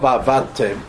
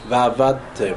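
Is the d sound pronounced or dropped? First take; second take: dropped; pronounced. First: The d sound is left out. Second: The d sound is clearly pronounced. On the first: The speaker calls it wrong. "not vavadtem" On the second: The speaker calls it right. "You have to say the dalet"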